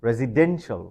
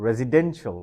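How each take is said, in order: First: The stress is on the third syllable. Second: The same.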